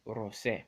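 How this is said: The name is pronounced the Japanese way. "in the Japanese um, dub, it's called Super Saiyan Rose"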